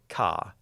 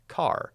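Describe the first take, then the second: First: The final R sound is left out. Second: The final R sound is clearly pronounced. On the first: "I don't say ka" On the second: "We, we pronounce the R"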